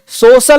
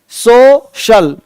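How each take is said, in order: First: The middle consonant is a plain 's' sound. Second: The middle consonant is an 'sh' sound. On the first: The speaker calls it wrong. "सोशल नहीं" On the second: The speaker calls it right. "सी का उच्चारण श होता है"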